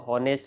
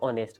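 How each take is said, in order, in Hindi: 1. यह शब्द h की ध्वनि से शुरू होता है। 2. यह शब्द स्वर से शुरू होता है, इसमें h नहीं है। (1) "अभी हम इसको हॉनेस्ट नहीं कहते" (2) "अभी हम इसको ऑनेस्ट कहते हैं"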